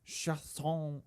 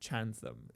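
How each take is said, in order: First: The name is pronounced in a French style. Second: The name is pronounced in an English style. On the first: "Maybe it's like f- French" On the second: "if you pronounce it in like in anglicized"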